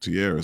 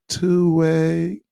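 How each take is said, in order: First: The name is said as Tierra. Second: The name is said as two way. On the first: The speaker calls it right. "her name Tierra" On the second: The speaker calls it wrong. "he was saying two way"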